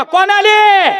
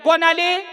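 First: Louder, rousing call to the crowd; loud prompt. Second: Said in the usual way. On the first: Shown as a demonstration. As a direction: shout the question to get a loud answer. (मोठ्याने विचारलेला प्रश्न) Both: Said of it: "मोठ्यानं बोला".

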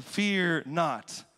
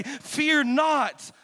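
First: Said in the usual way. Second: Commanding shout. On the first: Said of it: "Why are they gonna be saying". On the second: Retold or imitated. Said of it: "That's why you gotta say".

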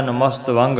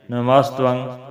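First: ਨਮਸਤ ਵਾਂਗ with long aa and sounded g; wrong split pronunciation. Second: ਨਮਸਤੰ in one piece with light v and nasal ending; correct joined pronunciation. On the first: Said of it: "ਨਹੀਂ ਬੋਲਣਾ". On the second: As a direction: say ਨਮਸਤੰ as namastvang, short last vowel. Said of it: "ਬੋਲਣਾ ਹੈ". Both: Shown as a demonstration.

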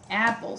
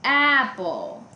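First: Said in the usual way. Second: Apple with AP punched and drawn out; stress on first syllable. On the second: Shown as a demonstration. Teacher testing apple against bison, first syllable stressed. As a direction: sound out apple, leaning hard on AP. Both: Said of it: "Tienen el stress pattern en la primera sílaba".

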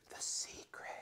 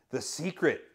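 First: A hushed, conspiratorial playful whisper; mock secretive whisper. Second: Said in the usual way. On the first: Pastor teasing about a bestseller title, mock secretive whisper. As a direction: breathe the title like a spooky secret.

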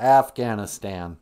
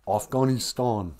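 First: "Afghanistan" with flat "a" as in "cat" throughout; "Afghanistan" slow, with American short "a" vowels; Minnesota pronunciation. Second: "Afghanistan" with broad "ah" vowels; "Afghanistan" slow, with "ah" and "ee" sounds; alternative pronunciation. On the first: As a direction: say "Afghanistan" as AFF-gan-iss-tan, slowly. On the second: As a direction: say "Afghanistan" as off-GAH-nee-stahn, slowly. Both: Shown as a demonstration. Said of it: "People can't decide if it's Afghanistan".

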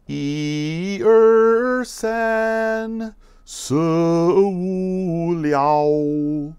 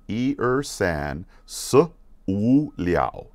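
First: High, sustained singing, each number stretched; sung, slow-motion song. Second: Said in the usual way. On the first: Shown as a demonstration. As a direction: sing the count slowly on long held notes. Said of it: "do it in slow motion". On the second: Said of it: "Let's do that again".

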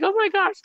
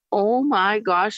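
First: High, breathless oh my gosh; amazed. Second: Said in the usual way. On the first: Retold or imitated. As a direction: let it fly up in stunned delight. Retold own amazed reaction.

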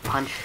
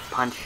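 Both takes have the same delivery.

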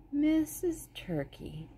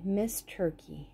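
First: "Missus" drawn out slowly and high, as "MI-siz"; corrected word. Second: Said in the usual way. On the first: Shown as a demonstration. Reader corrects the chapter title, slow and high "Missus". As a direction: say "Missus Turkey" slowly, fixing the earlier "Miss".

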